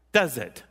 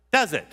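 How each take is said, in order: First: Said in the usual way. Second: Prodding the audience. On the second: Shown as a demonstration. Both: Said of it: "Hello, are you still there?".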